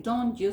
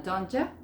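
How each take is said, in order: First: DON'T YOU in two complete words; "you" with its full oo vowel; full form. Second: DON'T YOU run into DON'T YA; "ya" with a weak uh, joined to don't; reduced form. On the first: Teacher citing the long form for learners, DON'T YOU in full. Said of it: "en vez de decir". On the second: Teacher showing how it sounds, DON'T YA linked. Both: Shown as a demonstration.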